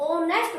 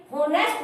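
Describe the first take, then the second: First: ओनेस्ट said with no h, starting straight on the vowel ओ; silent h. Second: होनेस्ट said with a spoken h at the start, हो-नेस्ट; wrong pronunciation with h. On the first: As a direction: drop the h so ओनेस्ट begins with ओ. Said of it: "हम इसको ओनेस्ट बोलेंगे". (ओनेस्ट को बिना ह के, सीधे ओ से बोलना) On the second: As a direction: sound the h in होनेस्ट as the wrong version. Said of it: "होनेस्ट नहीं बोलेंगे". (होनेस्ट को शुरू में ह की आवाज़ के साथ बोलना) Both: Shown as a demonstration.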